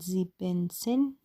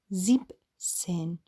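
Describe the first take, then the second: First: An extra 'en' syllable follows 'sieb'. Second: No extra syllable follows 'sieb'. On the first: The speaker calls it wrong. "نمیگن زیبنسن، زیبنسن اشتباهه" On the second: The speaker calls it right. "میگن زیب سن"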